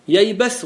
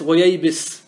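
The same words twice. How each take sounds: First: Slow ييبس as "yaybas", with a after the b; ييبس with an a vowel on the ba; fatha form. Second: Slow وييبس as "wa-yaybis", with i after the b; وييبس with an i vowel on the ba; kasra form. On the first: (ييبس بفتح الباء) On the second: (وييبس بكسر الباء) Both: Shown as a demonstration. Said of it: "بالفتح وبالكسر".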